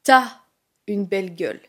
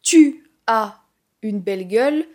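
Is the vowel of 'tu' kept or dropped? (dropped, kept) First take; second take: dropped; kept. First: The vowel of 'tu' is dropped. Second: The vowel of 'tu' is fully pronounced. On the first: The speaker calls it right. "Le « u » de « tu » est supprimé" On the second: The speaker calls it wrong. "on ne dit pas"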